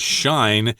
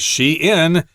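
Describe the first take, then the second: First: It is one syllable rhyming with fine. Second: It is two syllables, she plus in. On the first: The speaker calls it wrong. "you would probably read that as shine, uh, using German pronunciation sensibilities" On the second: The speaker calls it right. "we got she there and in put together"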